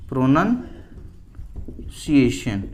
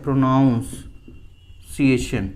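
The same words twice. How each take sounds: First: प्रोनंसिएशन very slowly as pro-nun, long pause, see-ay-shun; correct pronunciation, broken up. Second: प्रोनाउंसिएशन split slowly as pro-nowns, pause, see-ay-shun; mispronunciation, broken up. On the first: Teacher breaking down the correct word for students, slow pronunciation. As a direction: split प्रोनंसिएशन after a short "nun" sound. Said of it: "प्रोनंसिएशन सही है". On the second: Teacher breaking down the word students get wrong, slow mispronunciation. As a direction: draw out the faulty "nown" in प्रोनाउंसिएशन, x0.5 pace. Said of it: "प्रोनाउंसिएशन नहीं होता है".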